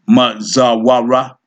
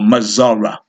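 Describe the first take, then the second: First: The word has a 'wa' sound in the middle. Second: The word has no 'wa' sound in the middle. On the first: "this ain't can be pronounced both ways" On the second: "There's no wa there"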